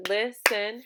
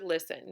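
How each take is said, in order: First: "listen" broken into two stressed beats; syllable by syllable. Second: Said in the usual way. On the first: Shown as a demonstration. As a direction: punch both syllables of "listen" separately. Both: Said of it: "listen has two syllables".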